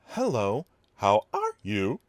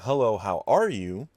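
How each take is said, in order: First: It is said switching between different people's voices. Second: It is said in one ordinary voice.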